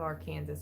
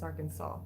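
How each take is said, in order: First: The word ends sounding like 'Kansas'. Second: The word ends sounding like 'saw'. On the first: The speaker calls it wrong. "It's not Arkansas" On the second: The speaker calls it right. "It's Arkansas, like S A W"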